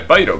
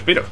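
First: The name is pronounced the English way. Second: The name is pronounced the Spanish way. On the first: This is how the name is said in the original English. "En inglés, lógicamente, será Spyro" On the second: This is how the name is said in the Spanish dub. "en el doblaje al español dice Spyro"

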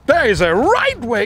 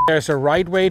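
First: It is said big with lots of energy. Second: It is said flatly with little energy. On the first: The speaker calls it right. "let's get bigger" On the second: The speaker calls it wrong. "That was so flat"

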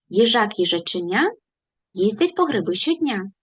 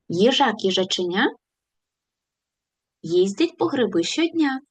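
First: The phrase is spoken very fast. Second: The phrase is spoken at a moderate speed. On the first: "І спробуємо ще швидше" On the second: "Пришвидшимося"

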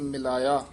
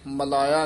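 First: The first syllable has the vowel i. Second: The first syllable has the vowel a. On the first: The speaker calls it right. "ਸਭ ਦੇ ਮੇਲ ਮਿਲਾਇਆ।" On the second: The speaker calls it wrong. "ਮਲਾਇਆ ਨਹੀਂ ਕਹਿਣਾ।"

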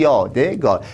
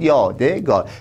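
First: The word is said in three syllables. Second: The word is said in three syllables.

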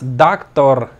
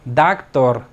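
No difference in how they are said.

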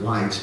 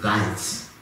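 First: The name begins with a W sound. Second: The name begins with a V sound. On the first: This is how the family says it. "we pronounce it Weitz" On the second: This is how it is said in German. "in German it's pronounced Weitz"

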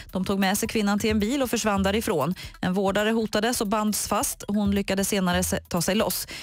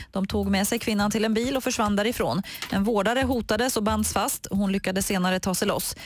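No difference in how they are said.

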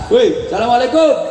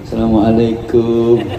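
First: It is a casual greeting to a friend. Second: It is a humble, deferential greeting.

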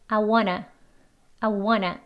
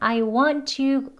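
First: Want to is reduced to one word, wanna. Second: Want to is said as two full words. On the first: "더 줄여서 하면 I wanna 이렇게 발음합니다" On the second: "대화할 때는 I want to 이렇게 말해도 되지만요"

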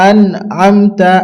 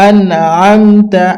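The two takes are said the same way.

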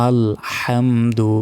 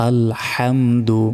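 No difference in how they are said.

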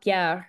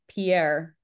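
First: The name is said with a French pronunciation. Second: The name is said with an English pronunciation. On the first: This is how a native French speaker would say it. The speaker calls it wrong. "it's not Pierre" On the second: The bearer is not a native French speaker. The speaker calls it right. "it's very much Pierre"

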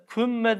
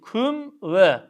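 First: The m runs straight into the next word. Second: The m is cut off before the next word. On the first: The speaker calls it wrong. "kümme değil" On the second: The speaker calls it right.

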